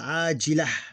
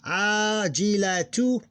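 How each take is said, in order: First: The word stops at 'ah' without the 't'. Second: The word ends with a full 'tu' syllable.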